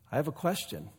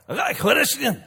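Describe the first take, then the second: First: Said in the usual way. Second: High, loud mock Scottish brogue; hammed-up Scottish punk accent. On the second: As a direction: put on a thick Scottish brogue. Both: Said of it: "When he was more like".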